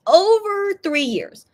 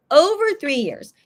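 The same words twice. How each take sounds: First: Over rising high, slow and drawn out; stress on over. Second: Said in the usual way. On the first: Real, not acted. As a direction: stretch over three years way up high.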